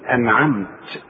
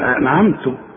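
First: The final t has no vowel after it. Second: The final t has a vowel other than a. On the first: The reciter stops on this word. "وإذا وقفت بسكن الحرف بقول أنعمت" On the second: The meaning of the word changes. "ما بتاخدش بالها من التشكيل وتقول أنعمت، تلخبط المعنى خالص"

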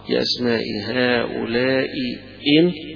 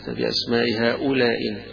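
First: Both glottal stops at the junction are fully pronounced. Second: The first glottal stop is dropped entirely. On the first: "حقق الهمزتين" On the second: "يسقط الهمزة الأولى"

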